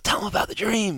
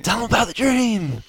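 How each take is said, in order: First: High, pushy whisper-to-the-ear push; quoted urging. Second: High, loud insistent push; louder urging. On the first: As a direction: nudge him to tell it. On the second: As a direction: press him harder to tell it. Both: Retold or imitated. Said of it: "the lady ... saying".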